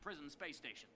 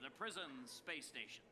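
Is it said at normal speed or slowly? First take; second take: normal speed; slowly. First: It is said at normal speed. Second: It is said slowly.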